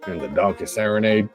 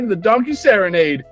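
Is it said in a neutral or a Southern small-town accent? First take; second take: Southern; neutral. First: It is said in a Southern small-town accent. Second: It is said in a plain reading voice.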